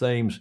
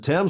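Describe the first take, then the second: First: The word begins with a th sound. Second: The word begins with a plain t sound. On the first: This is the original pronunciation. "originally it was pronounced Thames" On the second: This form came from a king's lisp. "couldn't pronounce the T H"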